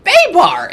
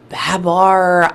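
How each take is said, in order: First: "Baybar" with a long ay, BAY-bar, sudden high and loud realisation; a surprised "Baybar", the ay stretched and high. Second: "Babar" with a short flat a, BA-bar. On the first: Finally getting the nickname from the client, "Baybar" with a high ay. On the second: Guessing the name aloud, "Babar" as in the elephant. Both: Retold or imitated. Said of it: "he mispronounced it and said Baybar".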